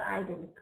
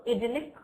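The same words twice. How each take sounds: First: IDYLLIC as eye-DEL-ik; long "eye" to start "idyllic"; US pronunciation. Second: IDYLLIC as id-IL-ik; short i to start "idyllic"; UK pronunciation. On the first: Teacher summing up both options, IDYLLIC with US long i. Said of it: "in U S English it's idyllic". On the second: Teacher summing up both options, IDYLLIC with UK short i. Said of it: "in U K English it's idyllic". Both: Shown as a demonstration.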